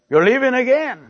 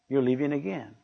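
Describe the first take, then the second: First: The phrase is said at a loud volume. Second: The phrase is said at a soft volume. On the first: "She said it loud" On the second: "she didn't say it in that tone of voice"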